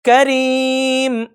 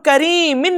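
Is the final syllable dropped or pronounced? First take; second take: dropped; pronounced. First: The word ends on m, ending dropped. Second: The word ends with the syllable -in. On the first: The speaker calls it right. "साकिन करेंगे और पढ़ेंगे करीम" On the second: The speaker calls it wrong. "करीमिन नहीं पढ़ेंगे"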